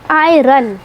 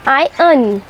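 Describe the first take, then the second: First: आयरन with the r rolled as spelt; spelling pronunciation. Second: आयरन with silent r, eye-un; correct pronunciation. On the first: Teacher showing the spelt-out mistake, आयरन with a clear r. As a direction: sound the r in आयरन, eye-ron. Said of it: "जैसा कि spelling में लिखा है". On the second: Teacher giving the right form, आयरन as eye-un. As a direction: drop the r in आयरन, say it like I earn. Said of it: "इसे कहते हैं". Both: Shown as a demonstration.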